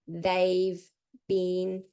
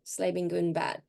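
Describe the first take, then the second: First: Each word is pronounced separately and clearly. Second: The sounds are heavily reduced and run together. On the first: "practicing it clearly, like in the greenhouse" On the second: "That's the jungle"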